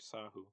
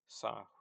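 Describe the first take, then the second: First: The lip rounding comes as a separate following sound. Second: The lip rounding is blended into the consonant. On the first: The speaker calls it wrong. "you don't say it sahu" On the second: The speaker calls it right. "when you're saying uh"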